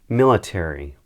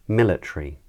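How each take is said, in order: First: It is said in an American accent. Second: It is said in a British accent. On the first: "the first time I say them, I'm going to say them in an American accent" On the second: "the second time I say them, I'll say them in a British accent"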